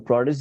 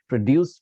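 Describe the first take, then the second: First: "produce" said PRO-duce; stress on first syllable. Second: "produce" said pro-DUCE; stress on second syllable. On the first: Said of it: "process ही बोलते रहेंगे". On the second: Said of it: "produce कभी नहीं बोलेंगे". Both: Shown as a demonstration.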